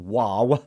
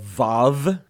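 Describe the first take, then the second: First: The name begins and ends with a W sound. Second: The name begins and ends with a V sound. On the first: This is the updated name of the letter. "I prefer the updated version, which is Waw, W-A-W" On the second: This is the older name of the letter. "the more old idea of this letter. It might have Vav, V-A-V"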